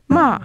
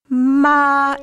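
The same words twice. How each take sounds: First: The pitch falls quickly downward. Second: The pitch stays level and steady. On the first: "a rapid downward gliss" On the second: "it's a flat tone. It's really sung"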